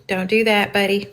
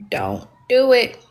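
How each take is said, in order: First: Said in the usual way. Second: Don't do it, slowed, with weight on do; slow warning. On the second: Shown as a demonstration. Streamer warning Bryson again, slow and pointed. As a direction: drag out Don't do it as a stern warning. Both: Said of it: "told you".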